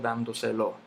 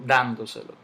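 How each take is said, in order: First: The stress falls on a later syllable. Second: The stress falls on the first syllable. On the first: The speaker calls it wrong. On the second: The speaker calls it right.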